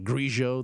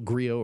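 First: The middle consonant is a zh-like sound. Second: The middle consonant is a plain L sound.

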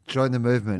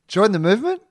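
First: The voice falls at the end. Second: The voice rises at the end like a question.

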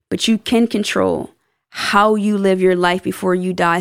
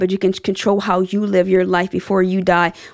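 First: The sentence is spoken more slowly. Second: The sentence is spoken rather quickly. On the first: The speaker calls it right. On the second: The speaker calls it wrong.

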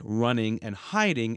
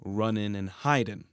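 First: The words end with the ng sound. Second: The words end with a plain n sound.

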